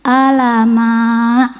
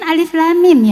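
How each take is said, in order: First: It is read as one short word. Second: It is read as three separate letter names. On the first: The speaker calls it wrong. "dibacanya apa? Alama, gitu" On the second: The speaker calls it right. "Bacanya kan alif lam mim"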